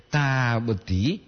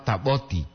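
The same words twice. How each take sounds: First: "taboti" with "ta" held long; long double A. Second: "taboti" said quickly with a short "ta"; no lengthening in "taboti"; short single A. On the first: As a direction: stretch it into "taa-boti". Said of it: "Dua A". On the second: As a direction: keep the first A of "taboti" short. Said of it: "tidak itu ta satu A". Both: Shown as a demonstration.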